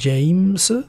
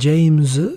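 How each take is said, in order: First: The name ends with an s sound. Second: The name ends with a z sound. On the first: "with a S on the end" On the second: "which is like with a Z on the end"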